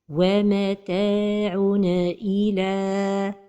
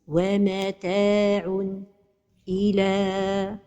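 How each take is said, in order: First: The n is released with a bouncing echo. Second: The voice stops briefly after the n. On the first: "c'est de donner al-qalqala pour النون de التنوين" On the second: "c'est la pause"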